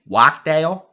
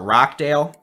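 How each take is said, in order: First: The name begins with a W sound. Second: The name begins with an R sound.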